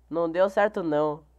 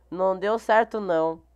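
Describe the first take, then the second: No difference in how they are said.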